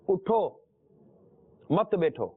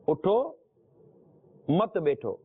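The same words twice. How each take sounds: The two takes are said the same way.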